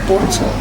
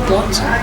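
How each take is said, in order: No difference in how they are said.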